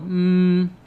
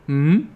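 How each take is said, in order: First: The pitch stays level and held. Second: The pitch rises from low to high. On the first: "I'm holding a note. I'm being flat" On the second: "going from low to high. It's called the second tone"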